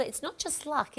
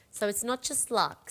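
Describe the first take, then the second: First: It's not just "luck" with the weight falling on "luck"; stress on luck. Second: "not" punched, then "just luck" falling away; stress on not. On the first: Host telling viewers the clover means more, stressing "luck". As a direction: lean on "luck", let it fall. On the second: Host insisting to viewers, stressing "not". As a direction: hit the word "not". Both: Shown as a demonstration.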